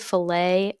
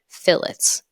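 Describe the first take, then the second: First: The word ends in an ay sound. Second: The word ends with a sounded t. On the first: This is how the cut of steak is named. "I want to say fillet. Maybe I'm just a big steak lover" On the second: This is how most people online say the term. "That's what everyone else on the internet is saying"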